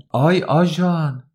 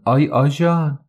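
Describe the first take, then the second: First: Much higher, slow drawn-out yell of آی; yelling for police. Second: Higher, louder call for the policeman. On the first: Woman yells to the gathering crowd, drawn-out cry. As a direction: stretch the آی into a long cry for help. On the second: Woman calls the policeman on Haji, loud call. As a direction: cry out for the cop. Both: A narrator's reading.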